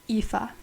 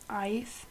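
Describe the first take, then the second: First: The name is said with its Irish pronunciation. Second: The name is read as English spelling suggests. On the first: The speaker calls it right. "It's pronounced" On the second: The speaker calls it wrong. "I pronounced it as"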